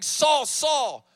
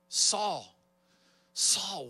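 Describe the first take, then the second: First: It sounds angry and mad. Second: It sounds kind and brokenhearted.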